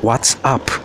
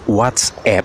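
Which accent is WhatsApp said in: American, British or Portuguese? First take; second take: British; American. First: It is said with a British English accent. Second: It is said with an American English accent. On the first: "ou à moda britânica, que é" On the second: "É à moda americana, que devia ser"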